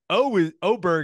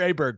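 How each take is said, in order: First: The name begins with an 'oh' vowel sound. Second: The name begins with an 'ah' vowel sound. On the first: The speaker calls it right. "Oberg is the proper way to say it" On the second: The speaker calls it wrong. "You'll hear Aberg quite a bit"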